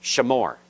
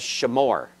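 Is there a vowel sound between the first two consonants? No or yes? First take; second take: yes; yes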